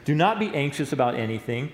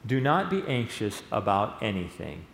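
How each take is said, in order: First: It is read quickly. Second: It is read slowly.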